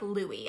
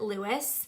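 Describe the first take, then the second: First: The name is said the French way. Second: The name is said the American way. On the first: The speaker calls it right. "I really like" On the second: The speaker calls it wrong. "people in America would pronounce it"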